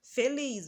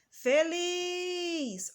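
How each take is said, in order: First: Said in the usual way. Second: Feliz with a high, long, held LIZ; high sustained call on the LIZ of Feliz; calling out, drawn-out. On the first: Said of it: "vamos pronunciar feliz". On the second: Shown as a demonstration. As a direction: call out Feliz, stretching the last syllable liz. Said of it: "Olha só onde nós demoramos mais".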